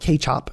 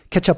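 First: The word has a more Indonesian-like pronunciation. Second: The word has an English-like pronunciation. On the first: The speaker calls it right. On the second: The speaker calls it wrong.

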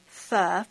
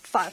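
First: It is said soft, the Vietnamese way. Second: It is said stern and clipped, the Hmong way.

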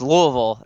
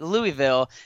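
First: The name is said the local way. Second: The name is said the outsider way. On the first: This is how residents say the city's name. The speaker calls it right. "I have to pronounce it right to be able to live here. So it's Louisville" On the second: This is how a newcomer says the city's name. The speaker calls it wrong. "I'd always call it Louisville, and everybody gave me all the kind of crap for it"

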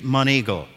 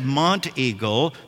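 First: The T in the middle is silent. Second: The T in the middle is sounded. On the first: The speaker is a local. The speaker calls it right. "The T is silent for a Middle Tennessean. It's Monteagle" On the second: The speaker is not a local. The speaker calls it wrong. "not to say Monteagle"

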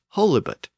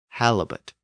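First: The first vowel is a long O. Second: The first vowel is a short A. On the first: "Theoretically, it should be pronounced holibut" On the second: "halibut is pronounced with a short A sound"

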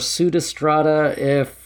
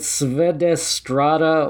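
First: The letter after the S sounds like u. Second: The letter after the S sounds like v.

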